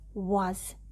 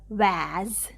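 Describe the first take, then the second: First: The vowel is not a clear 'a' sound. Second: The vowel is a clear 'a' sound. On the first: The speaker calls it right. "You cannot even say the sound of a. It's was" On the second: The speaker calls it wrong. "not was"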